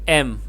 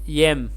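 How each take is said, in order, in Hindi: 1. अक्षर के नाम की शुरुआत "y" ध्वनि के बिना होती है। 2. अक्षर के नाम की शुरुआत "y" ध्वनि से होती है। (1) "but M" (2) "It is not yum, yem"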